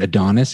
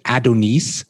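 First: It is said in a local Toronto accent. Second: It is said in an Arabic accent. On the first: This is how locals say it. "you would pronounce it Adonis if you're from here" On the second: This is how Arabic speakers say it. "a lot of Arabic people pronounce it Adonis"

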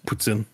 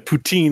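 First: The word ends with a short 'tsin' sound. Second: The word ends with a long 'teen' sound. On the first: The speaker calls it right. "so puts in is French word. You just got to say it with the right" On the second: The speaker calls it wrong. "Poutine is not"

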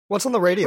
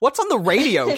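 First: It is said weakly, sounding drained and tired. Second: It is said with more energy and life. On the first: The speaker calls it wrong. "where I don't sound like I'm that close to death" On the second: The speaker calls it right. "I'm gonna say that again"

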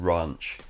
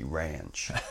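First: It is said with a British vowel. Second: It is said with an American vowel.

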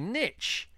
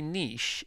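First: It is said the American way. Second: It is said the British way.

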